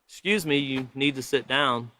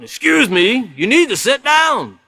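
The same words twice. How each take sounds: First: It is said plainly, without extra force. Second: It is said with extra force and emphasis.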